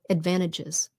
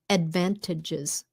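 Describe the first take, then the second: First: Said quickly with the T sound dropped. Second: Said slowly with the T sound heard.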